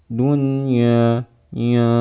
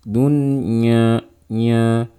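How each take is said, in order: The two takes are said the same way.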